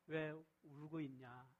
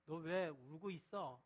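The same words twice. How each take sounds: First: Soft, slow, tender asking; gentle. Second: Mock-scolding demo, slow; how it should not sound, a light scold. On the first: Jesus asks weeping Mary gently, tender and slow. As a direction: comfort her as you ask. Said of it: "이런 좀 부드러운 말이에요". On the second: Preacher demos scolding a weeping woman, mildly scolding. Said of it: "야단치듯이 말하는 게 아니에요". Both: Shown as a demonstration.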